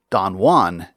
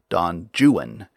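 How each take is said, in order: First: The name is said in a Spanish-like way. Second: The name is said in an anglicized way. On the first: This is how English speakers say it today. The speaker calls it right. "we now say Don Juan" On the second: This is the older way English speakers said it. The speaker calls it wrong. "unlike Lord Byron"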